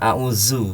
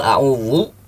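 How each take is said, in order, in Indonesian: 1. Konsonan tengah itu bunyi z biasa. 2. Konsonan tengah itu tebal dan emfatis. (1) "zai berubah" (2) "dibaca tebal"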